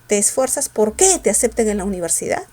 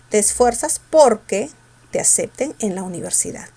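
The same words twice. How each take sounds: First: The stress in porque falls on que. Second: The stress in porque falls on por.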